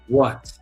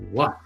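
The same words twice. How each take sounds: First: It is said in a put-on queen's voice. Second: It is said in the reader's plain voice.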